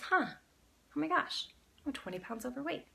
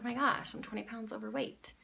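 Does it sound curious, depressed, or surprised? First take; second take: curious; depressed. First: It is said in a curious tone. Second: It is said in a depressed tone.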